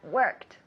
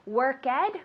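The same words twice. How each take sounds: First: The word ends in a T sound. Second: The word does not end in a T sound. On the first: The speaker calls it right. "So worked as a T" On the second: The speaker calls it wrong. "Don't say that"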